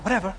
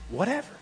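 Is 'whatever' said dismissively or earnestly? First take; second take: dismissive; earnest. First: It sounds bored and dismissive, like a sulky teenager. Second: It sounds sincere and earnest, stressing totality. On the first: It means the speaker does not care. The speaker calls it wrong. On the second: It means everything and anything. The speaker calls it right.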